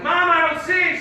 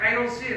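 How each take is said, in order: First: High, loud call to Mom. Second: Said in the usual way. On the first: Retold or imitated. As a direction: holler it to someone in another room. Calls to mom from upstairs.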